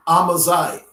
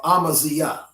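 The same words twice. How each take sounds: First: Amaziah ending in a ZYE sound; alternate pronunciation. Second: Amaziah ending in zee-YAH; alternate pronunciation. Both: Shown as a demonstration. Gives alternate pronunciations of the name.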